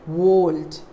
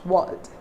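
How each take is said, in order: First: The vowel sounds like 'or'. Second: The vowel sounds like 'er'. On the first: The speaker calls it wrong. "you don't say world" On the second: The speaker calls it right. "It is a sound"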